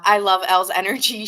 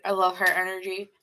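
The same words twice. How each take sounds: First: Said in the usual way. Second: Talking around a pen in the mouth; words muffled by a pen held in the teeth. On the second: Real, not acted. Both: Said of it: "As I'm saying that with a pen in my mouth".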